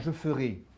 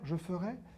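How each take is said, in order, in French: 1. La voyelle finale est fermée, comme é. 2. La voyelle finale est ouverte, comme è.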